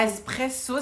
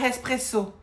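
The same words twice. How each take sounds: First: "Espresso" said loudly with a clean E at the start; loud corrective "Espresso"; correct pronunciation. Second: "espresso" with a heavy breathy h in front, "hespresso"; mock the pupil's error: "hespresso"; exaggerated wrong "espresso", h-first and drawn out; mimicked mispronunciation. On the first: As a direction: model "Espresso" firmly, no h. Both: Shown as a demonstration. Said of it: "c'est pas espresso".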